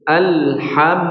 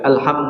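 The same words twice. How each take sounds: First: The L sound carries a slight resonant flow. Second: The L sound is cut off without resonance. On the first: The speaker calls it right. "tapi alham ... diberikan sedikit aliran suara" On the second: The speaker calls it wrong.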